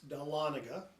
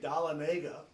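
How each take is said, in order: First: The name is said the local way. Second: The name is said the common outsider way. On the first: This is how the name really goes. The speaker calls it right. "It's Dahlonega" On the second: This is how many people say it. The speaker calls it wrong. "A lot of people say Dahlonega"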